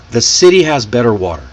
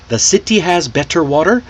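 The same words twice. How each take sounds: First: City, better, water with D-like Ts, run together quickly; smooth flap Ts. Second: City, better, water with crisp Ts, rising questioningly. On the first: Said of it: "See how smooth that, that comes out". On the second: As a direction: articulate every T in city, better, water, lift at the end. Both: Shown as a demonstration.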